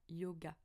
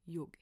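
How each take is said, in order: First: The word ends with an added 'a' vowel. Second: The word ends on the consonant, no vowel. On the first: This is the form that spread through a regional accent. The speaker calls it wrong. "c'est même pas yoga" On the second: This is the original form of the word. The speaker calls it right. "c'est yog"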